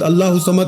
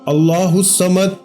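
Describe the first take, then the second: First: The words are rushed and run together. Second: Each word is said slowly and kept separate. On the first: The speaker calls it wrong. "बहुत सारे लोग भला कैसे पढ़ते हैं" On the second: The speaker calls it right. "एक एक लफ्ज अलग अलग करके समझाया है"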